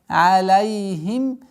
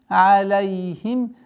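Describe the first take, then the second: The two takes are said the same way.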